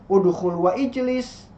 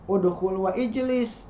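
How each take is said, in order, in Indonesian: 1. Vokal di awal ijlis jelas dibaca. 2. Vokal di awal ijlis jelas dibaca.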